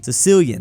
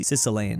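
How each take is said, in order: First: Sicilian said firmly as suh-SIL-yun, a bit louder; corrected pronunciation. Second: Sicilian said as sis-uh-LANE, unsure; fumbled pronunciation. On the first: Shown as a demonstration. Correcting himself on Sicilian for viewers, firm and clear. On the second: Real, not acted. Narrating a map war, he trips over Sicilian, tentative. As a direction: Sicilian stumbled on, last syllable like lane. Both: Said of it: "Not used to saying the language form of Sicily".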